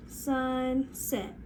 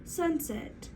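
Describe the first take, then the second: First: "Sunset" pulled apart as SUN... SET; segmented "Sunset", each syllable held; stretched into syllables. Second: "Sunset" run together, higher in pitch; short, joined-up "Sunset" with a higher start; blended whole word. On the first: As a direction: stretch "Sunset" slowly over two beats. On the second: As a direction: snap "Sunset" back into one word, pitched up. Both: Shown as a demonstration. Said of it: "let's try it one more time".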